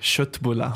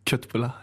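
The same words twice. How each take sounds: First: The word has a native Swedish pronunciation. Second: The word has a German-style pronunciation. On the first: The speaker calls it right. "In Schweden, wir sagen Köttbullar" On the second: The speaker calls it wrong. "Nicht Köttbullar"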